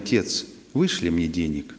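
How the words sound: It is said in a soft, gentle tone. The son seems to be asking politely. "Тот читает в такой мягкой форме"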